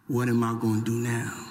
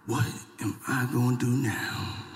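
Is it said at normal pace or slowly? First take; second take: normal pace; slowly. First: It is said at a normal pace. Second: It is said slowly and deliberately.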